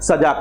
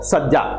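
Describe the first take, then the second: First: The middle consonant is short and single. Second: The middle consonant is doubled and held.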